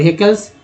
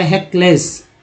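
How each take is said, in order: First: "हेकल्स" ending in a reduced 'kuls'; corrected -kuls ending. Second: "हेकलेस" ending in a clear 'less'; mistaken -less ending. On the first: Teacher correcting a misread word, "हेकल्स" with a -kuls ending. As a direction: say "हेकल्स" with a weak schwa before the L. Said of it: "हेकल्स, sorry". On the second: Teacher misreading a listed word, "हेकलेस" with a -less ending. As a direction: say "हेकलेस" with an 'ay' vowel in the last syllable. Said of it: "sorry". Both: Shown as a demonstration.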